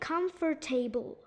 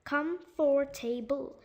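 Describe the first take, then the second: First: All four syllables are pronounced separately. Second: All four syllables are pronounced separately.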